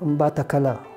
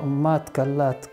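First: The name ends without a final t sound. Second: The name ends with a final t sound. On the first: This is how most people say it now. "ونسهم يقولوا أمبات كلا" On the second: This is how the local people say it. "الناس اللي أصحاب الأرض دي يسموها أمبات كلات"

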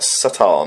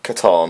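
First: The name begins with a soft S sound. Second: The name begins with a hard K sound. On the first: "I heard people talking like Satan" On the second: "I believe it's a hard K"

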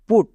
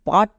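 First: The vowel is a rounded 'oo' sound. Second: The vowel is an open 'uh' sound. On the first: The speaker calls it right. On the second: The speaker calls it wrong. "এরকম না"

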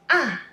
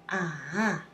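First: The pitch falls sharply from high. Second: The pitch dips low then rises. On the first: "The fourth tone, it starts high but drops sharply" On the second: "It sounds like something you suddenly understand. That's the third tone"

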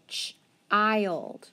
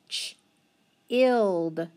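First: The vowel is a long i, as in child. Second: The vowel is a short i, as in chill. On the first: The speaker calls it right. "I'm going to try it with a long I now" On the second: The speaker calls it wrong. "if I mark it as short, let's see what happens. ... That doesn't sound right"

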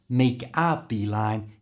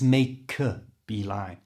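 First: The 'a' is full and separate from 'make'. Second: The 'a' is a schwa joined onto 'make'. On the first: The speaker calls it wrong. "So it's not" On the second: The speaker calls it right. "we can join it with the end of make"

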